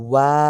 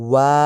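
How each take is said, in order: No difference in how they are said.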